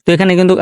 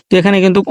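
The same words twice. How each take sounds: The two takes are said the same way.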